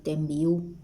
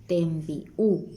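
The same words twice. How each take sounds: First: "tembi'u" run together as "tembiu", no break; without glottal stop. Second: "Tembi'u" with a clear stop before the u; with glottal stop. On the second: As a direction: break "Tembi'u" at the puso. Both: Shown as a demonstration. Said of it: "Si no le pongo el puso".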